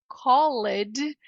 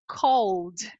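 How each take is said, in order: First: The ending is said as a separate syllable. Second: The L goes straight into a final D sound. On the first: The speaker calls it wrong. "que parece ser called" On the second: The speaker calls it right. "na verdade é cold"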